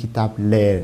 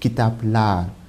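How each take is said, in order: First: The ending has a front 'e' vowel. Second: The ending has a back 'a' vowel. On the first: The speaker calls it wrong. "On ne peut pas dire kitap l'air, non" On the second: The speaker calls it right. "Kitap l'art. Parce que la dernière voyelle, c'est A"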